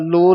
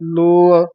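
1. ਸ਼ਬਦ ਇੱਕ ਛੋਟੀ 'lo' ਆਵਾਜ਼ ਹੈ। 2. ਸ਼ਬਦ ਦੇ ਅੰਤ ਵਿੱਚ ਇੱਕ ਹੋਰ 'aa' ਆਵਾਜ਼ ਜੁੜੀ ਹੈ। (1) "ਲੋ ਨਹੀਂ ਕਹਿਣਾ" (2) "ਇਹ ਜੋ ਤਿੰਨ ਮਾਤਰਾ ਹਨ, ਲੱਲਾ, ਹੋੜਾ, ਐੜਾ"

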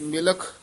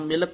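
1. ਅੰਤਲਾ ਵਿਅੰਜਨ ਅਸਪਿਰੇਟਡ kh ਧੁਨੀ ਹੈ। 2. ਅੰਤਲਾ ਵਿਅੰਜਨ kh ਧੁਨੀ ਨਹੀਂ ਹੈ। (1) "ਖੇ ਨਾਲ ਉਚਾਰਨ ਕਰਨਾ ਹੈ" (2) "ਨਹੀਂ ਕਹਿ ਦੇਣਾ"

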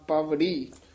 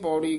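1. ਇਹ paavrhi ਵਾਂਗ ਬੋਲਿਆ ਜਾਂਦਾ ਹੈ, 'v' ਦੀ ਧੁਨੀ ਨਾਲ। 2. ਇਹ paurhi ਵਾਂਗ ਬੋਲਿਆ ਜਾਂਦਾ ਹੈ, ਬਿਨਾਂ 'v' ਦੀ ਧੁਨੀ ਦੇ। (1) "ਇੱਥੇ ਪਾਵੜੀ ਉਚਾਰਨ ਕਰਨਾ ਵਾਵੇ ਦੇ ਨਾਲ" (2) "ਇੱਥੇ ਨਹੀਂ ਪੌੜੀ ਕਹਿ ਦੇਣਾ"

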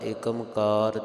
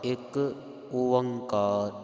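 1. ਇਹ ਇੱਕੋ ਸ਼ਬਦ ਵਿੱਚ ਜੁੜ ਕੇ ਬੋਲਿਆ ਜਾਂਦਾ ਹੈ। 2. ਇਹ ਦੋ ਹਿੱਸਿਆਂ ਵਿੱਚ ਰੁਕ ਕੇ ਬੋਲਿਆ ਜਾਂਦਾ ਹੈ। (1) "ਜ਼ਿਆਦਾਤਰ ਆਪਾਂ ਏਕਮਕਾਰ ... ਬੋਲ ਦਿੰਨੇ ਹਾਂ, ਪਰ ਇਦਾਂ ਨਹੀਂ ਬੋਲਣਾ" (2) "ਇੱਕ ਤੇ ਥੋੜਾ ਜਿਹਾ ਰੁਕਣਾ ਹੈ"

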